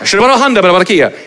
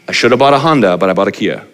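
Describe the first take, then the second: First: It is said very fast, like babbling. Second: It is said at a normal, clear pace.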